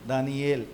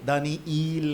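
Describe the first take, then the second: First: The name ends with a short 'el' sound. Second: The name ends with a long 'eel' sound. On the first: The speaker calls it right. "ये एल है" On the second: The speaker calls it wrong. "दानीईल नहीं है"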